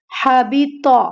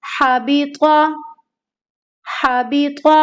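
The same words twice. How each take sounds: First: हाबिता with a light, thin ता; thin ta sound. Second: हाबिता with a thick, heavy emphatic त्वा; heavy twa sound. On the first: Teacher showing students the common mistake, a thin ta. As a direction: say हाबिता wrongly, with an ordinary ता. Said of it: "ता की आवाज आ रही है". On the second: Teacher showing students the correct heavy twa. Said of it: "ये त्वा है". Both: Shown as a demonstration.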